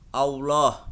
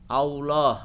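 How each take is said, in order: The two takes are said the same way.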